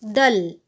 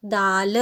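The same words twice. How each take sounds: First: दल with a short a; careful one-syllable दल, brief vowel. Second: दाल with a long drawn-out aa; long vowel. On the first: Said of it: "पहले हम उच्चारण करते हैं". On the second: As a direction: stretch the aa in दाल. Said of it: "द में आ की मात्रा है". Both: Shown as a demonstration.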